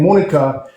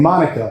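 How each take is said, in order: First: The name is said with a Spanish accent. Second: The name is said with an English accent.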